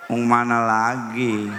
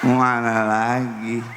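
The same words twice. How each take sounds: First: Slurred wife. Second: Slurred wife, laughing. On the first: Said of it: "Kata istri saya". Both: Retold or imitated.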